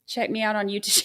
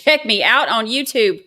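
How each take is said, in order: First: Said in the usual way. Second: Louder, laughing through the plug. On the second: Shown as a demonstration. Streamer laughing as she plugs her YouTube channel. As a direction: laugh while plugging the channel.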